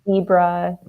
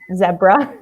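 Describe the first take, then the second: First: It is said with an American pronunciation. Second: It is said with a British pronunciation. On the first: "my dad, of course, would say" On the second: "because she's she's British, ... she says zebra"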